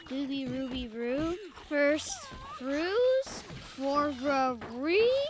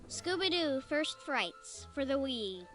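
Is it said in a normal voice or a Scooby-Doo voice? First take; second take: Scooby-Doo voice; normal. First: It is said in a Scooby-Doo voice. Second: It is said in a normal voice.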